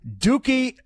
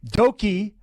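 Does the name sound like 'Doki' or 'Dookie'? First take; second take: Dookie; Doki. First: The name is said like 'Dookie'. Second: The name is said like 'Doki'. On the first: The speaker calls it wrong. "I said that incorrectly already" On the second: The speaker calls it right. "Doki is not Dookie"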